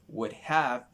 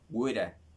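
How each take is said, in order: First: Each word is said fully and separately. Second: The words are run together into a contraction.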